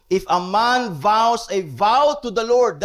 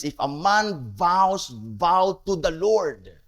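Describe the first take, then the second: First: Leaning on "vow" in "vows a vow"; stress on vow. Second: Slowed right down, each word laid out; slow deliberate reread. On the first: Preacher reading the Numbers verse to his congregation, weight on vow. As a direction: read it with "vow" pushed out, a touch louder. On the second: Preacher rereading the verse to his congregation, slow and deliberate. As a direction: repeat the verse slowly so it sinks in. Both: Shown as a demonstration. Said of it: "that is their emphasis".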